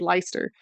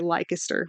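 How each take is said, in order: First: The middle C sound is dropped. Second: The middle C sound is pronounced. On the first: This is how it is said in Britain. "in the British way you'd say Leicester" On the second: This is how it is said locally in North Carolina. "you say Leicester with the hard C"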